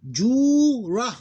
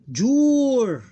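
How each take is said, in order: First: Jura high and loud, long "juu" then "ra"; two different syllables. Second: Jur very high and loud, long, closed on R; sukoon ending. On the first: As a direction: split Jura into a held syllable and a short "ra". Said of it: "Two different syllable". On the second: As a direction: hold Jur as one syllable ending on R. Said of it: "pronounced with sukoon". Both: Shown as a demonstration.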